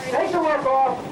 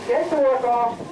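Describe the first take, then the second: No difference in how they are said.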